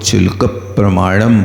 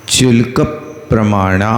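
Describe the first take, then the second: First: चुल्क प्रमाणम with a closed म ending; common wrong reading. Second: चुल्क प्रमाणा with a long final आ and no म; correct reading. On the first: Teacher quoting the reading many people get wrong. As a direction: quote the mistaken प्रमाणम ending in म. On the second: Teacher giving students the correct reading, clearly. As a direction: say प्रमाणा ending open on आ, not म. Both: Shown as a demonstration. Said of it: "कई लोग चुल्क प्रमाणम बोलते".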